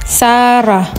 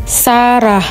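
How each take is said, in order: The two takes are said the same way.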